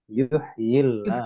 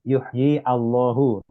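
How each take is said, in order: First: Yuhyi runs straight into llah without a stop. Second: Allahu starts with a separate glottal stop. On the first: The speaker calls it right. "tapi bacanya" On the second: The speaker calls it wrong. "Jadi bukan baca"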